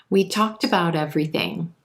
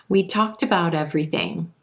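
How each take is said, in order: The two takes are said the same way.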